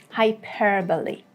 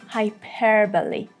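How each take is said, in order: No difference in how they are said.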